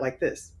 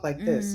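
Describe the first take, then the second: First: The voice is in its normal deeper register. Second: The voice is softened and higher. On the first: The caller might think it is a man. "and not like this" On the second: The caller should hear a woman. "I would automatically soften my voice"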